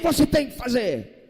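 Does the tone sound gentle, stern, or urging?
stern. It sounds stern and commanding, like an order. It is an obligation with no choice. "É uma obrigação, ou faz ou faz"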